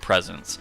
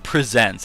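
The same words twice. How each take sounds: First: The stress is on the first syllable. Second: The stress is on the second syllable. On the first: The shop offers gifts. The speaker calls it right. "They're actually Delibird Presents" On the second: The shop is presenting something. The speaker calls it wrong. "I keep saying presents, as in like they're presenting something"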